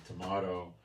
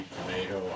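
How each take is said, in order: First: "tomato" with an AH in the middle; tomahto pronunciation. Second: "tomato" with an AY in the middle; tomayto pronunciation. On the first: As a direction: say "tomato" as to-MAH-to. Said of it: "I say". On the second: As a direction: say "tomato" as to-MAY-to. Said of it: "you say". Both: Shown as a demonstration.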